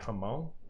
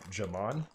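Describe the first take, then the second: First: The word begins with a breathy H sound. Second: The word begins with a hard J sound. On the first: The speaker calls it right. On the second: The speaker calls it wrong. "I pronounce it with a hard J"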